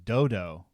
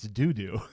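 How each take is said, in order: First: The vowels sound like 'oh' in 'dodo'. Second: The vowels sound like 'oo' in 'doo'. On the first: The speaker calls it wrong. "In my mind, it was dodo, but no" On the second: The speaker calls it right. "you're right. It's doo doo"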